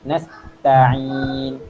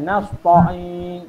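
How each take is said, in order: First: The t sound is thin and light. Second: The t sound is thick and heavy. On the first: The speaker calls it right. "jangan tebalkan dia" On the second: The speaker calls it wrong. "Ta dia menebalkan"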